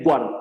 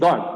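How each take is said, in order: First: A 'w' sound follows the g. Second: The g goes straight into the vowel. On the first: The speaker calls it wrong. "nunca es guard" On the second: The speaker calls it right. "nunca estoy pronunciando la U"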